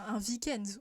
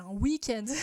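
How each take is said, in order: First: Week-end begins with a V sound. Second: Week-end begins with a W sound. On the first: The speaker calls it wrong. "on dit pas" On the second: The speaker calls it right. "on dit"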